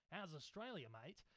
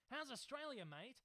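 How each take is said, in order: First: Put-on Australian accent. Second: Said in the usual way. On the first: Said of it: "I'm trying to be Australian". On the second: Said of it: "So maybe I should say".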